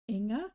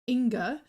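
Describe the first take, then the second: First: The name is said with a softer sound. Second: The name is said with a harder sound. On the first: The speaker calls it right. "like a bit softer" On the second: The speaker calls it wrong. "I was calling her Inga"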